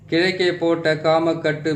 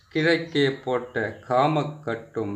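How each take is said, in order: First: It is said fast. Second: It is said slowly.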